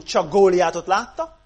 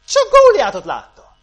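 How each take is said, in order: First: Said in the usual way. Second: "Góliátot" punched high and loud; emphatic repeat. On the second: Real, not acted. Preacher driving home what Israel saw, emphatic repeat with "Góliátot" punched. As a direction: cry out "Góliátot" far higher and louder.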